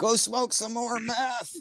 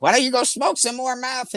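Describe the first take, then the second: First: High and slow, a softer mock jeer; mocking taunt. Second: High-pitched jeering taunt, imitating a heckler; mocking taunt. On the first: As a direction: drag it out like a lazy heckler. Strangers taunting him while he shops. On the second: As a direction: sneer it like a troll picking a fight. Angry people taunting him online.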